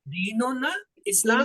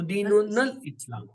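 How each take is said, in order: First: The two words are said separately, not linked. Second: The words run together, the n joined to l. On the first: "अलग अलग रखें" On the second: "नून को जो है लाम से जाके मिला दीजिए"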